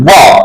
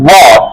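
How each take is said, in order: No difference in how they are said.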